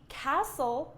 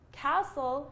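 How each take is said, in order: First: The T in the middle is silent. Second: The same.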